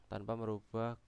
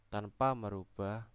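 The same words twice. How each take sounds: The two takes are said the same way.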